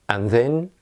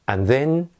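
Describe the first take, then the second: No difference in how they are said.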